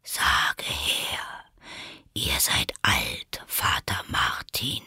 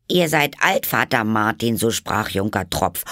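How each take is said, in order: First: Low, slow whisper; caterpillar. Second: Put-on much higher, louder girl reciting; poem recital. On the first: The caterpillar orders Alice to recite. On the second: Alice recites the poem to the caterpillar. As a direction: recite it with hands folded. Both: A narrator's reading.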